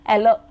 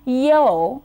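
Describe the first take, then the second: First: The word begins without a y sound. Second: The word begins with a y sound. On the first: The speaker calls it wrong. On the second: The speaker calls it right.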